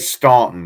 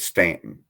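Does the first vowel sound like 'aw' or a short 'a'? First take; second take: aw; short a. First: The first vowel is a rounded 'aw' sound. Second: The first vowel is a short flat 'a' sound. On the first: The speaker calls it wrong. "I say Staunton" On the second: The speaker calls it right. "You don't pronounce the U"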